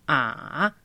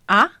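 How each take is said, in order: First: The pitch dips low and then rises. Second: The pitch rises from middle to high. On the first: "Tercero tono"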